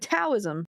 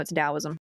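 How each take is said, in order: First: It begins with a hard T sound. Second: It begins with a D sound. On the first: The speaker calls it wrong. "when I was younger and inexperienced" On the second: The speaker calls it right. "no, it's"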